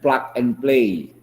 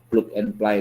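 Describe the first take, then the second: First: The phrase is pronounced the English way. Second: The phrase is pronounced as spelled, Indonesian-style. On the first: The speaker calls it right. "Kemudian plug and play ya" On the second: The speaker calls it wrong. "jangan plug and play lagi"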